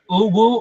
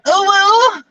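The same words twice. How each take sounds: First: The word is said in a plain, restrained way. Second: The word is said in an exaggerated, over-the-top way. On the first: "standard inflection"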